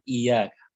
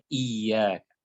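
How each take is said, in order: First: "Iyyaka" with a light single y, no doubling; without the shaddah. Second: "Iyyaka" slowly, leaning on a doubled y; with the shaddah. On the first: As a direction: say "Iyyaka" wrongly, gliding over an undoubled y. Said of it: "bacanya jangan Iyyaka". ("Iyyaka" tanpa syaddah, bunyi ya tunggal) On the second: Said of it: "tapi bacanya Iyyaka". ("Iyyaka" dengan syaddah, bunyi ya ganda ditahan) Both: Shown as a demonstration.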